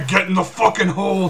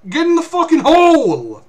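First: Laughing replay. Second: High, loud urgent shout; urgent yell. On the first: Retold or imitated. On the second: Real, not acted. Player screaming at the kid to get in the hole, urgent yell. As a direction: yell the order at the companion. Yelling at companion to hide.

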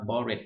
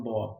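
First: "bored" wrongly said in two syllables as "bor-ed"; how "bored" is not said; wrong pronunciation. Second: "bored" said as one syllable, like "board", with a silent ed; the right way to say "bored"; correct pronunciation. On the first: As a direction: sound out the ed in "bored" as an extra syllable, the learner's mistake. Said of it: "คำนี้ไม่ได้อ่านว่า bored". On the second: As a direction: say "bored" clean in one beat, no ed sound. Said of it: "คำนี้อ่านว่า bored". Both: Shown as a demonstration.

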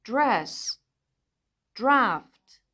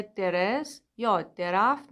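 First: درفت said as draft together; درس said as dres, d and r joined; correct cluster. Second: درفت said as de-raft; درس split as de-res; wrong vowel inserted. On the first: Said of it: "کلمه هایی مثل". (درس و درفت درست) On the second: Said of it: "نداریم". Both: Shown as a demonstration.

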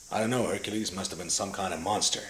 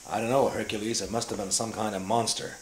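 First: A hint of old Western hero in the voice; John Wayne. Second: Said in the usual way. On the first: Audition line for Hercules, done as a light John Wayne. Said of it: "John Wayne". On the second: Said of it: "It had lines in it like".

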